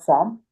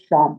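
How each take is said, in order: First: The syllable begins with a plain s sound. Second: The syllable begins with a sh sound. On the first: The speaker calls it wrong. "This is not sam" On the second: The speaker calls it right. "this is sham"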